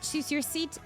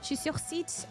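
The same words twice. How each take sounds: First: It is spoken in the speaker's plain accent. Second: It is spoken with a put-on French accent.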